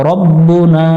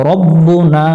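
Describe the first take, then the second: Both takes have the same delivery.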